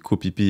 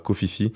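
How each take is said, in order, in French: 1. Le nom se prononce avec des sons p. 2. Le nom se prononce avec des sons f. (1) "on dit Kopipi" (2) "et pas Kofifi"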